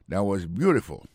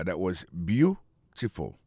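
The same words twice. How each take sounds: First: Said in the usual way. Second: "beautiful" said slowly, with weight on its first syllable "beau"; slow teacher model of "That was beautiful"; slow stress demo. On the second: Shown as a demonstration. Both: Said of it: "aksan tonbe sou premye silab la".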